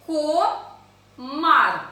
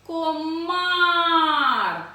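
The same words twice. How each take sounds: First: "Комар" as two loud syllables, clear pause between; split into syllables. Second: Long loud call, "Комар" stretched on the last vowel; higher, drawn-out summons to a mosquito. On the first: Teacher counting syllables with children, word split by a pause. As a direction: break "Комар" after "Ко". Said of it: "Визначаємо склади". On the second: Teacher showing where stress falls, calling out drawn-out. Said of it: "Покликали комара". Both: Shown as a demonstration.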